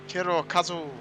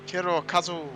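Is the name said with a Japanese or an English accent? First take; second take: Japanese; Japanese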